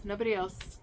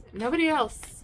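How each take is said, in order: First: Nobody else repeated quietly, falling; softer echo. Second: Nobody else said higher, stressing Nobody; emphatic high first take. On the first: Reader quietly repeating to the listener. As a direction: let the echo drop off softly. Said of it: "repeated softer". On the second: Reader insisting to listener it is only them. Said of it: "repeated emphasis". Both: Real, not acted.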